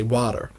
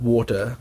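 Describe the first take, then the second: First: "water" with an open "ah" and final r; American "water", unrounded vowel, r sounded; American pronunciation. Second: Said in the usual way. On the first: Shown as a demonstration. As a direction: say "water" the American way, like "wah-der". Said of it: "they say water". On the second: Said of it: "where we say we'll have water".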